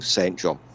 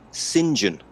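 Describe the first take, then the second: First: The name is said as its written words. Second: The name is said in a contracted form. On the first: The speaker calls it wrong. "you don't pronounce it like that" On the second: The speaker calls it right. "You pronounce it Saint John"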